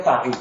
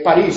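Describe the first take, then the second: First: "París" said as PA-ris, stressed on PA; stress on first syllable. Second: Said in the usual way. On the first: Shown as a demonstration. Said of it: "entonces tenemos que pronunciar París". ("París" pronunciado como palabra llana, PÁ-ris) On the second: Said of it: "París sin acento".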